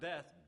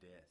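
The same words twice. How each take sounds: First: It is said in a plain, neutral tone. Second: It is said in a dark, sinister tone.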